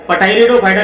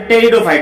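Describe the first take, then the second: First: Pteridophyta with an audible P before the T; P wrongly sounded. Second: Pteridophyta begun straight on T; silent P. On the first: Teacher warning students off a mistake, Pteridophyta with the P pronounced. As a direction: say Pteridophyta as "Pa-teridophyta". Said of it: "Pteridophyta नहीं बोलते". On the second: Teacher correcting the term for students, Pteridophyta with silent P. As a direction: say Pteridophyta as "Teridophyta", dropping the P. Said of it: "ये पी यहाँ पे silent है". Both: Shown as a demonstration.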